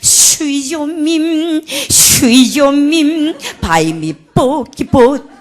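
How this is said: The words are mangled with a heavy foreign accent. A foreign singer could not manage the pronunciation. The speaker calls it wrong. "발음이 너무 안 되니까"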